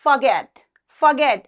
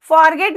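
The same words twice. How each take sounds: First: Forget with the first syllable reduced to a light fə, stress on get; correct pronunciation demo. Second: Forget with a strong, full "for" and a rolled r, as farget; wrong pronunciation demo. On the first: Teacher modelling the right way for students, Forget as fə-GET. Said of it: "क्या बोलना है?". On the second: Teacher warning students against the wrong way, forget as far-get. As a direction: show the mistake: forget with a heavy far-get. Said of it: "forget नहीं बोलना है". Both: Shown as a demonstration.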